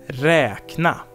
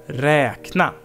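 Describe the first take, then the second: The two takes are said the same way.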